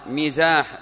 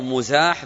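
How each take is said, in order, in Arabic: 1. الحركة الأولى هي صوت 'i'. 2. الحركة الأولى هي صوت 'u'. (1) "بالكسر" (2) "بالضم"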